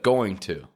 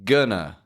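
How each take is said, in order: First: The 'to' is pronounced fully and clearly. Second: The 'to' is reduced to a weak 'uh'.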